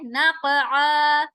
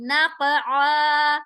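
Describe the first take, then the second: First: नक़आ with a bouncing echo on क़; नक़आ said slowly with a jerky qalqala on क़; qalqala on qaf. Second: नक़आ with आ from the middle of the throat; नक़आ with a clear throat ain after the क़ bounce; throat ain sound. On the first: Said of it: "क़ाफ पर हम कलकला करेंगे". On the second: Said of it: "आइन हुरूफ़ हलकी है". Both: Shown as a demonstration.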